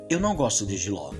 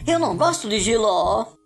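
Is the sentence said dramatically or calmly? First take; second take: calmly; dramatically. First: It is said in a calm, relaxed way. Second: It is said in a dramatic, emphatic way.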